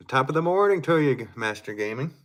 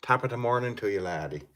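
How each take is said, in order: First: Loud, high Irish greeting; hammed-up Irish brogue; Irish accent. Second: Lightly put-on Irish accent; a hint of Irish brogue. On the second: Shown as a demonstration. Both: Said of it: "said that in Irish accent".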